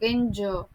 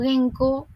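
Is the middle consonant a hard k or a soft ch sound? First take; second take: soft ch; hard k. First: The middle consonant is a soft ch sound. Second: The middle consonant is a hard k sound. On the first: The speaker calls it right. "es como una Che más suave" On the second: The speaker calls it wrong. "en este caso leeríamos Genko"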